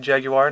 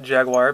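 First: The word is pronounced the British way. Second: The word is pronounced a non-British way. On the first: The speaker calls it right. "I'll call it the way they call it" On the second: The speaker calls it wrong. "not Jaguar"

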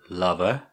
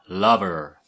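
First: The final R sound is not pronounced. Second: The final R sound is strongly pronounced. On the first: This is the standard way of saying it. "lover is normal" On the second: This is how it is said in Bristol. "Lover is how we say in Bristol"

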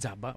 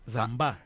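First: The name begins with a 'dz' sound. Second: The name begins with a 'z' sound. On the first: The speaker calls it wrong. "Όχι Τζάμπα" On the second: The speaker calls it right.

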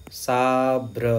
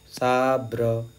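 No difference in how they are said.

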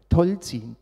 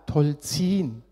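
First: The stress is on the first syllable. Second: The stress is on the second syllable. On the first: The speaker calls it wrong. "Alle Leute sagen Teutzing" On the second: The speaker calls it right. "man betont die zweite Silbe"

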